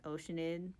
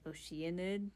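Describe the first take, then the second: First: The word begins with 'ocean', then 'id'. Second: The word does not begin like 'ocean'. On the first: The speaker calls it wrong. "not Oceanid" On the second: The speaker calls it right. "it's pronounced like Oceanid"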